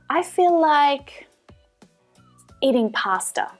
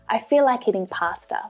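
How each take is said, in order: First: There is a pause after "like". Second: The sentence flows without a pause or stretched vowel.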